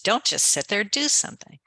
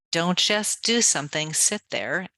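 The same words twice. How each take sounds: First: "Don't just sit there" rising, then "do something" with DO jumping much higher; mock-quote the saying, flinging DO up high; quoting the old adage. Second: "don't just do something" with DO leaned on, then "sit there" rising; her own corrected version. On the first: Scene: mocking the old adage she rejects, DO pitched high. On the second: Shown as a demonstration. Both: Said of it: "unlike the old adage".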